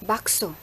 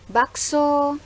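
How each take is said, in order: First: It has a plain, statement-like tune. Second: It has a calling-out tune. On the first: It tells someone that there is bakso there. "mengandung tafsiran bahwa itu merupakan pemberitahuan" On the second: It calls out to the bakso seller. "tafsiran dari tuturan saya itu adalah memanggil penjual bakso"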